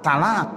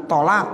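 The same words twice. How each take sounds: First: "talak" with light t and open a; ta-initial pronunciation. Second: "tolak" with heavy t and rounded o; heavy Arabic to. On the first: Teacher showing a tongue that can't, "talak" with ta. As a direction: lay "talak", ta instead of to. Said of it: "dibilang begitu". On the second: Teacher giving what they can't say, "tolak" with to. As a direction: correct "tolak", starting with to. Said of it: "nggak bisa bilang tolak". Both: Shown as a demonstration.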